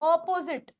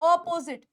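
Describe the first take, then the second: No difference in how they are said.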